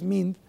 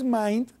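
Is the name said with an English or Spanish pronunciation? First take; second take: Spanish; English. First: The name is said with Spanish pronunciation. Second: The name is said with English pronunciation. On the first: "si lo pronunciamos en español" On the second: "En inglés"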